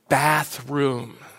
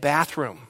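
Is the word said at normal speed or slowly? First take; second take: slowly; normal. First: The word is said slowly and drawn out. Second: The word is said at a normal speed.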